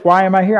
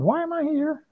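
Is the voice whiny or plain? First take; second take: plain; whiny. First: It is said in a plain voice. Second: It is said in a whiny voice.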